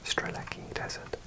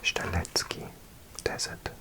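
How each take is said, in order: First: The name is said with English sounds. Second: The name is said with Polish sounds. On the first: "maybe ignore the Z and make that a K" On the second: "In Polish, it would be"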